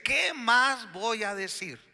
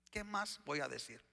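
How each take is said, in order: First: High, drawn-out rhetorical question; emphatic question. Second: Low, much softer rhetorical question; quiet question. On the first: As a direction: throw the question out high and slow. Preacher voices the author's question emphatically. (pregunta enfática, aguda y alargada) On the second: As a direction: let the question drop to a soft murmur. Same question repeated low and quiet. (pregunta en voz baja, apagada) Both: Acted.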